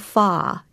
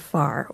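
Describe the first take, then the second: First: The final R sound is dropped. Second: The final R sound is pronounced.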